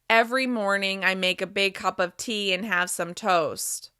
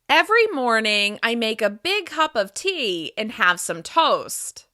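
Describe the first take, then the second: First: The pitch stays flat and monotone throughout. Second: The pitch moves up and down expressively. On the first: The speaker calls it wrong. "your voice will sound more monotone" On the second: The speaker calls it right. "With more pitch variation, you'll sound more expressive and interesting"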